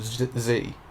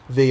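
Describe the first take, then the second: First: The word starts with a buzzing 'z' sound. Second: The word starts with a soft 'th' sound.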